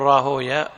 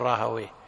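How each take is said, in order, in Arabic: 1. يتبع الاسم نطق المحدّثين. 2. يتبع الاسم نطق اللغويين. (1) "أما نحن فعلى طريقة المحدثين نقول راهوية" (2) "ولا نقول راهوية"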